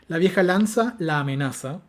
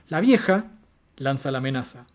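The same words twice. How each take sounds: First: Vieja and lanza run together in one phrase. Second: A phrase break separates vieja from lanza. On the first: An old spear threatens her. "donde yo tengo una lanza que es vieja y amenaza a una entidad de, femenina" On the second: The old woman throws out the threat. "Si yo separo vieja de lanza"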